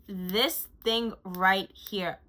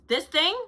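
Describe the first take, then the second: First: Very slow, weighty presentation; slow emphasis. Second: Higher, louder excited exclamation. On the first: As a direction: drag each word out. Slow emphatic product showcase. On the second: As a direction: burst out with excitement. Excited repeat of product. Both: Real, not acted.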